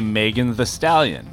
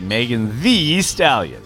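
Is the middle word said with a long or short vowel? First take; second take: short; long. First: The middle word has a short, reduced vowel. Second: The middle word has a long 'ee' vowel. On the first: The name is treated as spelled with one E. "if it was only one E in the name, I would just say" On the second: The name is treated as spelled with two E's. "It has two E's. So I say"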